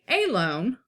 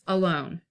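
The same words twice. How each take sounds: First: The stress is on the first syllable. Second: The stress is on the second syllable. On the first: The speaker calls it wrong. "We not say alone" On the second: The speaker calls it right. "It's alone"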